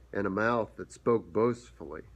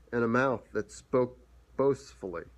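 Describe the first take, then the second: The two takes are said the same way.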